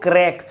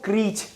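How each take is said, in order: First: The word ends with a k sound. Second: The word ends with a ch sound. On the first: "कुछ लोग क्रैक" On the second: "कुछ लोग इसको क्रीच"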